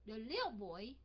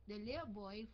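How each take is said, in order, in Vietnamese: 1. Giọng lên xuống rõ rệt, biểu cảm mạnh. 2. Giọng giữ nguyên, ít biểu cảm. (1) "Giống như là mình đang giận, mình raise cái voice mình lên vậy" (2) "Chứ mình đọc bình bình"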